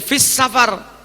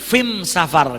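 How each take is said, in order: First: The article sounds like standard Arabic 'al'. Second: The article sounds like Yemeni 'am', with m.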